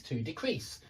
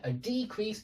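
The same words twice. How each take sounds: First: Decrease stressed on the second syllable, soft; verb stress. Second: Decrease stressed on the first syllable, softer; noun stress. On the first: Teacher repeating the verb, second-syllable stress on decrease. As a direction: lightly land on CREASE in decrease. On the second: Teacher repeating the noun, first-syllable stress on decrease. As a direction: lightly hit DE in decrease. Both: Shown as a demonstration. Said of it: "hear me changing the position of the stress".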